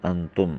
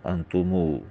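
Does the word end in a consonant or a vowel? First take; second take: consonant; vowel. First: The word ends on a bare consonant. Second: The word ends with a long 'oo' vowel. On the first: This is the regular form. "आखिर में जज्म" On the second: The sound is added for the poem's meter. "वाव की आवाज़ पैदा की जाती है"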